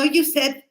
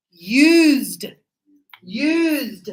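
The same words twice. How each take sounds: First: "used" said as "you said", two syllables; wrong pronunciation. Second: "Used" as one long syllable with a voiced end; correct pronunciation. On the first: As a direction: show the mistake "you said", sounding the -ed. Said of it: "I hear that too". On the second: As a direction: model "Used" stretched out, no extra vowel before the D. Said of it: "No, no, you said". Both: Shown as a demonstration.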